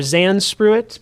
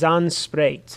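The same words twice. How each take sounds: First: The name is read as English spelling suggests. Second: The name is said with Afrikaans pronunciation. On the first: The speaker calls it wrong. "it looks like Zandspruit" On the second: The speaker calls it right. "It's Afrikaans, ... but it is Zandspruit"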